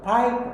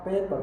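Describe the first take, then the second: First: "pipe" for paper, Australian vowel like pipe; Australian accent. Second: Said in the usual way. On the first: Shown as a demonstration. Lecturer showing students the Australian "pipe". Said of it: "but Australia logat, not paper, but pipe". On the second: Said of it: "but Australia logat, not paper".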